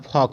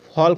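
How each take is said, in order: First: The L is silent, with no L sound. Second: The L sound is pronounced before the K. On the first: The speaker calls it right. "फॉक बोलना है" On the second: The speaker calls it wrong. "फॉल्क नहीं बोलना है"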